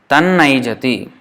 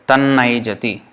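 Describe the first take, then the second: No difference in how they are said.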